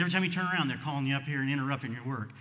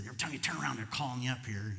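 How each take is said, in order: First: Annoyed outburst. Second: Said in the usual way. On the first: Retold or imitated. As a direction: let the frustration burst out this time. Repeated complaint, louder.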